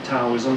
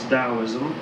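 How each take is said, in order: First: The word begins with a hard T sound. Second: The word begins with a D sound. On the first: "it's spelled with a T. Some people pronounce it" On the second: "but generally it's"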